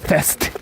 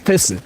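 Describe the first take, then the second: First: The word ends in a bare t consonant. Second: The word ends in an added u vowel. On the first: This is the English form. "Not fest" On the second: This is the Japanese form. "When we shorten it in Japanese, we call it fesu"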